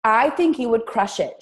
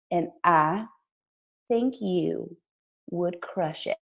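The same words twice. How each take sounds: First: Said in the usual way. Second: Put-on hushed, halting Southern accent; sweet Southern voice, trailing down softly; Jackie Woodfin. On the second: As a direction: imitate a Southern mentor, pausing between phrases and softening. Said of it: "I'm gonna do her accent".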